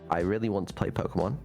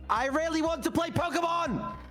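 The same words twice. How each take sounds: First: The sentence is said in a calm tone. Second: The sentence is said in an angry tone. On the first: "First one is calm" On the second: "second one is angry"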